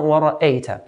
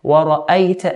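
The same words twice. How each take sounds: First: Wara'ayta with e for a, ra-ey-ta; blurred fatha, wrongly. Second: Wara'ayta with an open a, ra-ay-ta; clear fatha. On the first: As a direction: slide the a of wara'ayta towards eh. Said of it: "and not wara'ayta". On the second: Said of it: "We want either clear fatha". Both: Shown as a demonstration.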